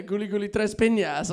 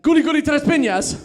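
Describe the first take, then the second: First: Said in the usual way. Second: Chanted, high, loud triumphant call; chanted, shout it out like a playground jinx; loud game chant. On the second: Retold or imitated. Chanted, girlfriend calls her Argentine jinx, loud and high.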